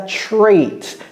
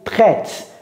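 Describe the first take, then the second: First: It is said with English sounds, like tray-t. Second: It is said with French sounds, like traite. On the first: The speaker calls it right. "vous voyez comment j'ai prononcé ça? Trait" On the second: The speaker calls it wrong. "J'ai pas dit traite"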